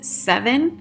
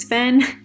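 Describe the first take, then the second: First: The name sounds like the number seven. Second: The name sounds like Sven. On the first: The speaker calls it right. "just like the number seven" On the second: The speaker calls it wrong. "I was thinking it was Sven"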